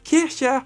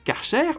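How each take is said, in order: First: The name is said with a German pronunciation. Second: The name is said with a French pronunciation. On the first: The speaker calls it right. "C'est un nom allemand et on devrait dire Kircher" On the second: The speaker calls it wrong. "on le prononce mal en France"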